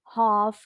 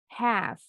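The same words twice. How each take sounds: First: A British accent with a rounder vowel. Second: An American accent with a wider vowel. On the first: "kalau orang Inggris bunyi A-nya lebih bulat" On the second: "Kalau orang Amerika lebih lebar"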